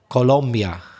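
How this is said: It is said with a Spanish pronunciation. "I know in Spanish it's, forgive my bad pronunciation, but something like Colombia"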